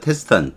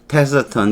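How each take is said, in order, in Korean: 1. 첫 음절 뒤에는 모음이 들리지 않습니다. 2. 첫 음절 뒤에 약한 모음이 들립니다. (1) "어는 거의 발음이 안 되고요. 테스턴 이렇게 발음해도 괜찮아요" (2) "테서턴 이렇게 발음합니다"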